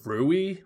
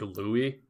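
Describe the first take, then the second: First: The name begins with an R sound. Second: The name begins with an L sound. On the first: The speaker calls it wrong. "like with an R" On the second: The speaker calls it right. "the English name Louis"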